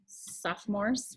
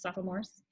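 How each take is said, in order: First: "Sophomores" said as two syllables, soph-mores; middle syllable dropped. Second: "Sophomores" softly said as three syllables, soph-uh-mores; middle syllable sounded. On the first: Teacher showing how the word is usually said, "Sophomores" as soph-mores. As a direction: softly run "Sophomores" together without the middle o. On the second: Teacher musing on a funny word, "Sophomores" with all three syllables. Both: Shown as a demonstration. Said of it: "we just say it really fast".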